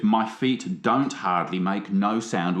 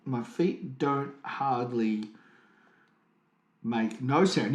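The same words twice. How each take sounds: First: Slow, pointed lyric read; slow and pointed, showing "don't" and "no"; explaining the grammar. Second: Very slow, pause before "make no sound"; slow pointed recitation. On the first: Pointing out the double negative to his co-host, slowly. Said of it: "it's actually a double negative". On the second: Repeating the lyric to mock the double negative, very slow. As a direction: drag it out, stressing "don't" and "no". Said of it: "it's a double negative". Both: Shown as a demonstration.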